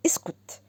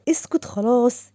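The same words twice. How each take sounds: First: A sharp whispered اسكت so nobody overhears; whispered hush. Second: Said in the usual way. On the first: Acted. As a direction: whisper اسكت, breath only, no voice. Hushing him.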